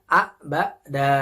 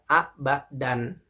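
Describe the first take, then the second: First: It ends in a long vowel without n. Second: It ends in a short vowel plus n. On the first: The reader stops on the word. "Huruf dalnya dibaca panjang" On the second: The word is read without stopping on it. "dibacanya singkat"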